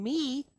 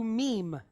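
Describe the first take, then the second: First: "me" ending on the open "ee" vowel; open syllable. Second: "meme" as "meem", closed on M; doubled M. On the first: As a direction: say "me" with no closing consonant. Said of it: "goes from being me". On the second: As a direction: close "meme" with a second M after "ee". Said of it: "we're gonna double it". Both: Shown as a demonstration.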